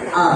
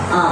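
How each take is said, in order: Both takes have the same delivery.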